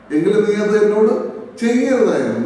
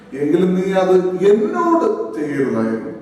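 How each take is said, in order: First: The stress is on the word ചെയ്യരുതായിരുന്നു. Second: The stress is on the word എന്നോട്.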